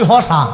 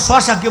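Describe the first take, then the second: First: The word begins with an h sound. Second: The word begins with a sh sound. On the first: This is how the Mymensingh region says it. "আমাদের নেত্রকোনা ময়মনসিংহে আমরা শশাকে বলি হসা" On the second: This is the standard form of the word.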